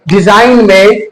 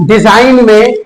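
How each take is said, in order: The two takes are said the same way.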